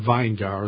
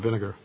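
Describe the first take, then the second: First: The first syllable sounds like 'vine'. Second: The first syllable sounds like 'vin'.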